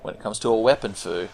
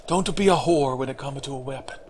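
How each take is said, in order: First: Said in the usual way. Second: Mock Japanese accent, softer; Miyazaki. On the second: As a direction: imitate a director's advice in a Japanese accent. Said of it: "Straight from the man himself".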